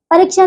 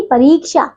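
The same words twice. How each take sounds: First: परीक्षा said as "pariksha"; wrong short vowel. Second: परीक्षा said as "pareeksha"; correct long vowel. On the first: Teacher showing pupils the error, परीक्षा with short i. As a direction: clip the i in परीक्षा. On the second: Teacher correcting pupils, परीक्षा with long ee. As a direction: hold the ee in परीक्षा. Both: Shown as a demonstration. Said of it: "परीक्षा नहीं".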